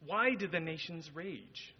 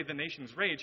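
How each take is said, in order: First: "Why do the nations rage" asked slowly, falling on RAGE; slow, deliberate question on "Why do the nations rage"; posed as question. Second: Said in the usual way. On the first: Retold or imitated. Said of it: "asks those as a question". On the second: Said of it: "He doesn't say".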